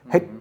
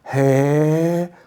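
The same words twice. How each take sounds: First: The first vowel is short. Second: The first vowel is long. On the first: This is how the word is really pronounced. The speaker calls it right. "die kennen keine kurzen Umlaute" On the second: This is how an unsure child says it. The speaker calls it wrong. "sondern Hätte, sagen sie"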